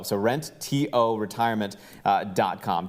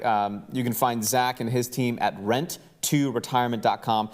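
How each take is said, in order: First: Slow, spelled-out rent to retirement with "to" clearly stressed; stress on the word to. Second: Said in the usual way. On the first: Shown as a demonstration. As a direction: say it slowly and lean on "to", the word, not the number. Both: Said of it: "Not the number two, the word".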